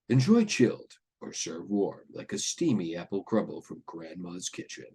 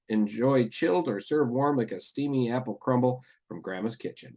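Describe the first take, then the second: First: It is read in a deep voice. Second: It is read in an ordinary voice. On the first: The speaker calls it right. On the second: The speaker calls it wrong.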